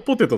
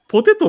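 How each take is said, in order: First: It has the standard Tokyo pitch accent. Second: It has the Kansai pitch accent.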